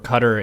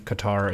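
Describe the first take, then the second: First: It is pronounced the local, regional way. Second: It is pronounced the American way. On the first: This is how people in the region say it. "Qatar is correct for the region" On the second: This is how people in the United States say it. "Qatar is how you say it in the U S A"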